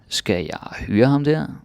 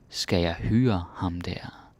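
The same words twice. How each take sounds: First: It is said at normal speed. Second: It is said slowly.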